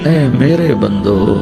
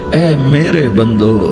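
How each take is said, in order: Both takes have the same delivery.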